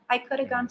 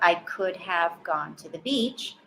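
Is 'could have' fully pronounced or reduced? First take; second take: reduced; full. First: The words are reduced and linked together. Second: Each word is pronounced fully without reduction. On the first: The speaker calls it right. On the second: The speaker calls it wrong.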